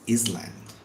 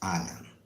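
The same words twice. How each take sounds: First: The s in the word is sounded. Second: The s in the word is silent. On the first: The speaker calls it wrong. "most of the people even call it" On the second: The speaker calls it right. "it's pronounced as Island"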